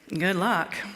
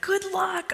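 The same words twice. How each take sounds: First: It is said in a jaded, doubtful tone. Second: It is said in a cheerful, warm tone. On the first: The speaker doubts the marriage will last. "those jaded people that say" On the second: The speaker's own relationship is going well. "You're probably experiencing peace and contentment and joy"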